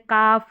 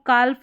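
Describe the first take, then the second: First: The L sound is left out entirely. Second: The L sound is pronounced before the F. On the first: The speaker calls it right. "एल silent है" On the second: The speaker calls it wrong. "नहीं पढ़ेंगे"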